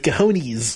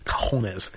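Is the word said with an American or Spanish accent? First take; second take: American; Spanish. First: It is said with an American English accent. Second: It is said with a Spanish accent.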